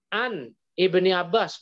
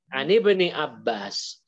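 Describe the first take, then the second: First: The hamzah is pronounced, separating the words. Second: The hamzah is dropped, linking the words. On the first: The speaker calls it wrong. "bukan begitu bacanya" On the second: The speaker calls it right. "Jadi gimana?"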